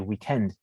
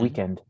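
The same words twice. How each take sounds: First: The stress is on the last syllable. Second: The stress is on the first syllable. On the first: This is how people from the UK say it. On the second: This is how Americans say it.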